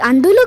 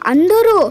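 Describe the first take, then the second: First: The last syllable uses an L sound. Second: The last syllable uses an R sound. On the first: The speaker calls it wrong. "అది అందులు కాదురా" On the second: The speaker calls it right. "ముందు నువ్వు రా పలకడం నేర్చుకో"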